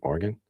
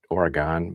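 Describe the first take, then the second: First: It is pronounced the Western way. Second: It is pronounced the Midwestern way. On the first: This is how people out west say it. "I think out west they say Oregon" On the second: This is how the speaker has always said it. "I always said Oregon, but maybe it's because I'm from the Midwest"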